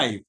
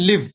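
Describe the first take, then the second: First: The vowel is an 'ai' diphthong. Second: The vowel is a short 'i' sound. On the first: "ఇది ఐ sound అన్నమాట" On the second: "లాకి ఈ ఒత్తు పెట్టి వా"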